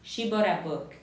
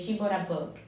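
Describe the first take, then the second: First: Bought links into a with an r-like sound. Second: Bought links into a with an r-like sound.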